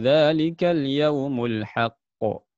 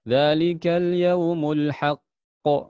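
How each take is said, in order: First: The final consonant gets one light, plain bounce. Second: The final doubled consonant is pressed and held heavily. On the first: The speaker calls it right. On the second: The speaker calls it wrong. "itu tidak boleh kata beliau ini. Salah"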